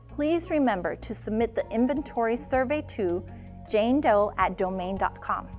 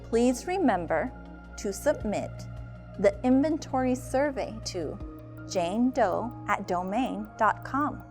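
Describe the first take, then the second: First: It is said at normal, quick speed. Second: It is said slowly.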